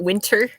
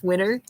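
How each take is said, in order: First: The t in the middle is clearly pronounced. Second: The t in the middle is dropped. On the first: "we don't enunciate words like" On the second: "it's winter"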